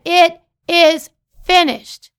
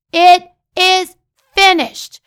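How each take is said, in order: First: Said in the usual way. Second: Proclaimed loud. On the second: Acted. Preacher proclaims the three words.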